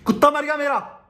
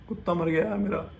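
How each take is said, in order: First: It is said in an angry voice. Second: It is said in a sad voice.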